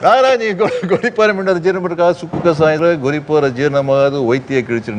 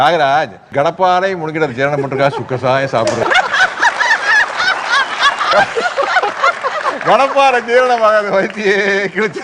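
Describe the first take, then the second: First: The line is rattled off very quickly. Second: The line is spoken slowly with measured pauses. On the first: The speaker calls it wrong. "ஒரு ரொம்ப ஃபாஸ்டா பேசுவார்" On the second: The speaker calls it right. "நிறுத்தி நிதானமா பேசணும்"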